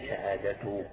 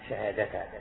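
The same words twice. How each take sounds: First: The word ends with a u vowel. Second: The word ends with an a vowel. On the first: The word starts a new sentence. "على استئناف كأنك تبدأ جملة جديدة" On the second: The word is the object of an unstated verb. "تنصبها على تقدير فعل محذوف"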